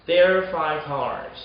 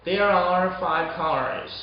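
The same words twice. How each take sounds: First: "There are five cars." as "there five cars"; "There are five cars." with "are" swallowed; second R dropped. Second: "There are five cars." slowly with "are" sounded; slow model "There are five cars.", both R's clear; full careful reading. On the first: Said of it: "두 번째 R을 빼보는 거예요". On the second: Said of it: "세 번째 문장도 마찬가지예요". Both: Shown as a demonstration.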